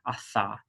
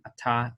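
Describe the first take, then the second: First: The middle consonant is a soft TH sound. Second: The middle consonant is a hard T sound. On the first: "soft pronunciation, which is atha, just like a th sound" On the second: "we pronounce it the same"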